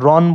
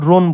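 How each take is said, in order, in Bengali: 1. r-এর পরের স্বরধ্বনিটি খোলা aw ধ্বনি। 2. r-এর পরের স্বরধ্বনিটি বদ্ধ oh ধ্বনি। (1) "আমরা এই পরেরটা রন বলি না" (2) "কিন্তু স রোন বলি"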